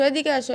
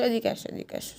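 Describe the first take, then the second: First: Said in the usual way. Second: Whispered. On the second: Real, not acted. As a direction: drop to an unvoiced whisper. Same call whispered.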